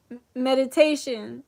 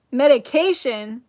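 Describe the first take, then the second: First: "meditation" with a t, after a stumble on m; self-correction. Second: "Medication" with a k sound, loudly questioned; startled query on "Medication", k in place of t; slip of the tongue. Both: Real, not acted. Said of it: "That was a weird Freudian slip".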